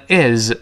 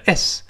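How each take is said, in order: First: "is" said slow with a buzzing z at the end; slow, voiced ending. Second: "s" as quick "is" ending in a hissed s; quick, voiceless ending. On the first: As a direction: draw out "is" into a voiced z. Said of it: "读慢了读成". (慢读 is，词尾发浊音 z) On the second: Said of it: "读快了读成". (快读 is，词尾发清音 s) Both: Shown as a demonstration.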